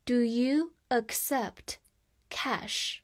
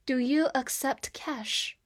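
First: Slow, with a clear break before the last word; slow read-along. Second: Said in the usual way. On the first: Shown as a demonstration. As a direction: read it slowly in chunks for learners to repeat. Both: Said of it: "再跟我慢慢读一遍".

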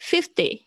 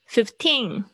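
First: "Fifty" with high FIF, falling "ty"; stress on first syllable. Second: Put-on "fifteen" with the weight on "teen"; stress on second syllable. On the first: Teacher contrasting two numbers, front-stressed "Fifty". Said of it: "在第一个音节上面". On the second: Teacher contrasting two numbers, end-stressed "fifteen". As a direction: lean on "teen" in "fifteen", ending nasal. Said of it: "它的重音是在后面". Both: Shown as a demonstration.

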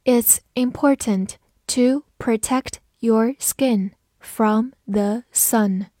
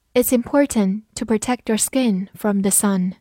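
First: A slow, spaced-out model reading. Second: Said in the usual way. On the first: Shown as a demonstration. Teacher modelling the sentence for learners, slow reading. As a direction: read slowly, word by word. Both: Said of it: "慢慢来读".

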